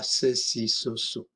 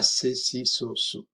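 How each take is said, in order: First: The s is apical, as in northern Spanish. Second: The s is dental, as in Latin American Spanish. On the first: The speaker calls it wrong. "c'est pas ça" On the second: The speaker calls it right. "mais ça, c'est si, so, so"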